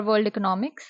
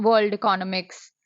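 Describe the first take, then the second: First: Economics said as "eco-NOM-ics"; stress on third syllable. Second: Economics said as "ee-CON-omics"; stress on second syllable. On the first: Booktuber unsure of pronunciation, economics stressed on its third syllable. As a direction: put the stress on "nom" in economics, questioning lift. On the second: Booktuber trying out a pronunciation, economics stressed on its second syllable. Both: Shown as a demonstration. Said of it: "which is the right way to pronounce".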